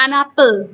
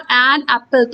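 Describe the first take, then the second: First: An apple run together as one word, n joined to apple; linked words. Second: An and apple said apart with a clear break, slow; separated words. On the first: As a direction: glide an into apple with no gap. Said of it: "an apple बोल देते हैं". (an apple को जोड़कर, बिना रुके एक शब्द की तरह) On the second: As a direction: pause between an and apple. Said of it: "अलग-अलग बोलेंगे". (an और apple को अलग-अलग, बीच में रुककर) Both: Shown as a demonstration.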